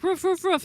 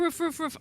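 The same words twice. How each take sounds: First: High, louder woofs; dog barking. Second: Playful high woof; dog barking. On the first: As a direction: bark it out like the dog. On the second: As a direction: bark like the dog. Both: Retold or imitated. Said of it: "He's like".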